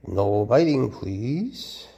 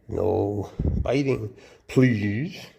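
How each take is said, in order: First: Stern and loud on biting, falling hard; a sharp no to a snapping snake; firm warning. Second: Slow, pleading request to the snake; slow coaxing warning. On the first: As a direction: warn the snake off firmly. Firmly tells snake not to bite. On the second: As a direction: stretch every word like a patient plea. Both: Real, not acted.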